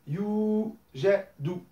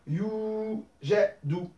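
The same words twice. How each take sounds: The two takes are said the same way.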